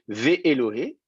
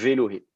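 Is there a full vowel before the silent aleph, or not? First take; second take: full vowel; no vowel. First: A full vowel sounds before the aleph syllable. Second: No vowel sounds; the aleph syllable is merged. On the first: The speaker calls it wrong. "le premier remonte en voyelle pleine et donc ça vous ferait Vé-Éloé" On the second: The speaker calls it right. "le Aleph devient carrément quiescent"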